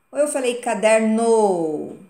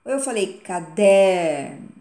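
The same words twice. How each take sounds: First: "caderno" com NO forte e esticado, caderNÔ; ênfase no NO. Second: "caderno" com DER forte e alto, caDÉRno; ênfase no DER. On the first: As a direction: bata com força na última sílaba de "caderno". (tônica deslocada para o NO de "caderno") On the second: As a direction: bata com força na sílaba do meio de "caderno". (tônica forte no DER de "caderno") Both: Shown as a demonstration. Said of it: "sendo cada uma forte".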